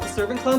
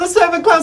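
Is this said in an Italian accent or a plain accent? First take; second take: plain; Italian. First: It is said in the speaker's plain accent. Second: It is said in a put-on Italian accent.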